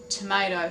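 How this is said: Tomato is said in an American accent.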